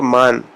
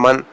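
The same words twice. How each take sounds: First: مان with a wide open aa vowel; open Persian a. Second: Said in the usual way. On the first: Shown as a demonstration. Teacher contrasting Urdu من with Persian. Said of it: "تھوڑا کھول کے مان". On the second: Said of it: "Urdu تلفظ میں اس کو من".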